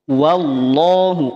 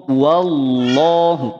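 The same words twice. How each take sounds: Both takes have the same delivery.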